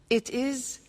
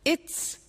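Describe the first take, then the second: First: Both words are said fully and separately. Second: The words are joined into one short syllable.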